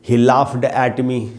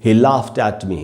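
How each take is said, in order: First: The word laughed ends with a d sound. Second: The word laughed ends with a t sound. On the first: The speaker calls it wrong. "पहले जब हमको ये rule नहीं मालूम, हम क्या बोल रहे थे" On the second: The speaker calls it right. "हमको कहना चाहिए ही लाफ्ट एट मी। देखिए कितनी आसानी से बोल रहा हूँ मैं"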